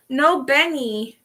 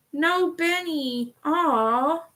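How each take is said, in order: First: Said in the usual way. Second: "No Benny" stretched slowly, higher and pouty; mock pout. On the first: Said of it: "said again, drawn out". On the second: Shown as a demonstration. Streamer lamenting to chat that there is no Benny, mock pout. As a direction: whine "No Benny" like a sulking child. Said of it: "repeated in a pouty voice".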